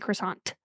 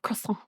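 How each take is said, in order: First: The final T sound is pronounced. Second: The final T sound is left off. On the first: "with the T" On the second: "instead of"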